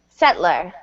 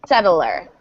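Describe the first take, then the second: First: The word is said with two syllables. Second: The word is said with three syllables.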